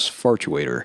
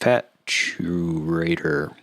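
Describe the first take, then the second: First: The first syllable has an r sound. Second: The first syllable has no r sound. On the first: The speaker calls it wrong. "it often wants to come out as Fartuator" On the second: The speaker calls it right. "very careful in how you pronounce that"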